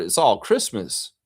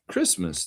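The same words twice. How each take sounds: First: Said in the usual way. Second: A soft whispered echo of Christmas. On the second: Shown as a demonstration. Showing a festive card to viewers, whispering the word.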